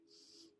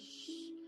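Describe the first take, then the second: First: The sh sound is clear and crisp. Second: The sh sound is lisped and unclear. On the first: The speaker calls it right. "not shh" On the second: The speaker calls it wrong. "Like I can't say shh properly. I say shh"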